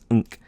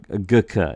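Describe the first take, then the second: First: It is said as a nasal nk sound. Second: It is said with a hard g sound. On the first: The speaker calls it right. "It's unk" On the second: The speaker calls it wrong. "It's not gk or gk"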